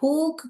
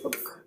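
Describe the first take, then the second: First: The vowel is drawn out long. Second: The vowel is kept short. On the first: The speaker calls it wrong. "ஹூக் கிடையாது" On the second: The speaker calls it right. "Short sound தான் இது"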